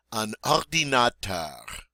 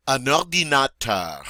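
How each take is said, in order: First: "Un ordinateur" repeated slowly; slow French repeat. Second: "Un ordinateur" said clearly; French model word. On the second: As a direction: say "Un ordinateur" with the stress at the end. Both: Shown as a demonstration. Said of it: "Go for it".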